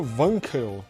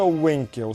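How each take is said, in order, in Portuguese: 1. É falado com pronúncia no estilo alemão. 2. É falado com pronúncia do português brasileiro. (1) "se pronuncia Wankel" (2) "não se pronuncia Wankel"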